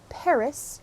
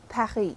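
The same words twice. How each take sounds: First: The word is said with an English accent. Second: The word is said with a French accent. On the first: It does not make the listener think in French. "with an English accent" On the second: It makes the listener start thinking in French. "with a French accent"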